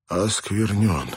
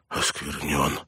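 First: Slow, stretched cry of realisation, not shouted; drawn-out dismay. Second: Softer, defeated mutter to himself. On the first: Priest seeing himself defiled, slow drawn-out dismay. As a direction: draw the word out in dismay. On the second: Defiled priest to himself, muttering. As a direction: mutter it under your breath in dismay. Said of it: "пробормотал Калахан". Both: A narrator's reading.

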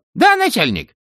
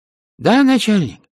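First: Very high squeaky underling; distant voice cutting back in. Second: High, loud squeaky underling on the line; distant voice. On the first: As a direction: pop back on the line, high-pitched. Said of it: "а потом прорезался снова". (далёкий писклявый голос, снова на связи) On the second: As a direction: pipe up as a far-off minion. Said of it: "послышался далёкий голос". (далёкий высокий голос подчинённого) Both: A narrator's reading.

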